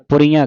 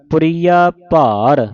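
First: ਪੁਰੀਆਂ with a nasal last vowel; nasalized ending. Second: ਪੁਰੀਆ with pure aa, no nasal; slow, stretching ਪੁਰੀਆ with no nasal; without bindi. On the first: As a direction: add bindi nasal to ਪੁਰੀਆਂ. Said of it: "ਬਿੰਦੀ ਲਾ ਕੇ ਪੜ੍ਹਦੀਆਂ". (ਪੁਰੀਆਂ ਬਿੰਦੀ ਨਾਲ) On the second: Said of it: "ਬਿੰਦੀ ਤੋਂ ਰਹਿਤ ਪੜ੍ਹਨਾ ਹੈ". (ਪੁਰੀਆ ਬਿਨਾਂ ਬਿੰਦੀ) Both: Shown as a demonstration.

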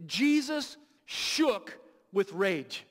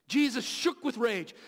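First: Slow, drawn-out, every word weighed; slow weighty emphasis. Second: Said in the usual way. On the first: Shown as a demonstration. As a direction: let each word land slowly. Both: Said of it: "The Greek translation literally means this".

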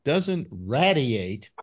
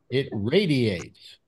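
First: Radiate said slowly, RAY-dee-ate; slow, deliberate radiate with RAY; careful radiate. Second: Radiates said slowly with a short A, RAD-ee-ates; drawn-out radiates with RAD; mock radiates. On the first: Shown as a demonstration. Host explaining the word to his wife, slowly. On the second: Host mimicking his wife's word, slowly. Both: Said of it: "I try to explain to her".

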